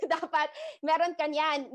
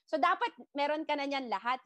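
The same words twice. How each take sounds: First: Laugh, then repeat it a bit louder. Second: Said in the usual way. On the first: Real, not acted. Coach telling trainees to be on every platform, laughing. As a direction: laugh it off as you drive it home.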